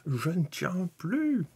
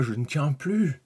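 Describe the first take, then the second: First: Very high, drawn-out playful wail; hammed-up, slow, high-pitched impatience; mock-desperate impatience. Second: Raised, louder burst of impatience; playfully can't wait any longer; louder, eager outburst; impatient. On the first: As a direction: stretch it out as if bursting to see. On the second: Pretend.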